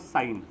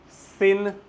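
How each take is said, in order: First: The vowel sounds like 'eye'. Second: The vowel sounds like 'ih'. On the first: The speaker calls it right. "इसको मैं pronounce करूंगा साइन" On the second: The speaker calls it wrong. "सिन नहीं बोलेगा कोई भी"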